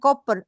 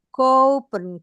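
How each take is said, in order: First: The o vowel is short. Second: The o vowel is long. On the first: The speaker calls it wrong. "bukan bukan kopen" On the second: The speaker calls it right. "O-nya dua, kopen"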